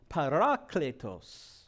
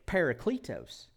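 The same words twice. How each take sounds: First: Parakletos as pa-RA-kle-tos, Greek style; parakletos, careful Greek vowels; Greek pronunciation. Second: Parakletos as PAIR-uh-klee-toes in a Midwestern accent; parakletos, playful Midwestern accent. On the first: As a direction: say parakletos the Greek way, pah-rah-KLEH-tos. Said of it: "Say that one". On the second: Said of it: "in the Midwestern dialect". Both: Shown as a demonstration.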